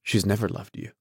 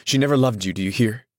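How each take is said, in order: First: Said in the usual way. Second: Excited, insistent outburst; crying out. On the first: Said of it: "said Gatsby". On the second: A narrator's reading. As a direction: cry it out with vivid excitement. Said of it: "he cried".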